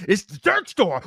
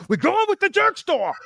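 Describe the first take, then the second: First: Firm, a bit raised; mild mock insistence; insistent. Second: Much higher, hammed-up stubborn squeal; over-the-top mock insistence; squeaky mock George. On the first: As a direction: state it like the decision is made. Mocking George's stubbornness.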